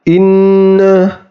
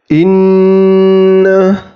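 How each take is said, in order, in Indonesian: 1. Bunyi sengau ditahan selama satu harakat. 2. Bunyi sengau ditahan selama dua harakat. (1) "tidak boleh dibaca satu harokat saja ... itu bacaan yang salah" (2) "dua harokat"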